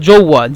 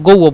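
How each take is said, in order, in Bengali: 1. শব্দটি 'j' ধ্বনি দিয়ে শুরু হয়। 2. শব্দটি 'g' ধ্বনি দিয়ে শুরু হয়। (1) "মূলত যৌয়া জিম ও হা" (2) "জিমকে মিশরে গয়ন উচ্চারণ করে এই জন্য গৌয়া বলতেছি"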